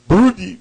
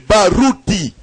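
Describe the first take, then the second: First: The name is said with an American-style pronunciation. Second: The name is said with its native pronunciation. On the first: Foreigners struggle to say the name. The speaker calls it wrong. "ils ont des problèmes" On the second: This is how the name really sounds. The speaker calls it right. "Je suis Barouti"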